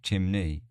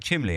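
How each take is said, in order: First: The middle consonant sounds like an N. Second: The middle consonant sounds like an L. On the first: The speaker calls it right. "not chimney, chimney" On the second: The speaker calls it wrong. "I go chimley"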